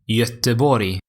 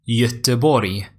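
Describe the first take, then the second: No difference in how they are said.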